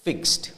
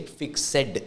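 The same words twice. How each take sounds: First: "fixed" as one syllable, ending in a t sound; correct pronunciation. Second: "fixed" in two syllables, fik-SED; mother-tongue mispronunciation. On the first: Shown as a demonstration. Teacher shows IELTS students the standard word, "fixed" said correctly as one syllable. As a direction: say "fixed" as "fikst", with no separate "ed". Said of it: "usually it's pronounced as fixed".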